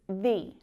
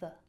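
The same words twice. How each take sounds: First: The word has a long, full vowel. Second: The word has a weak schwa vowel. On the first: "you won't really hear it pronounced like that very often" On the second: "our favorite schwa"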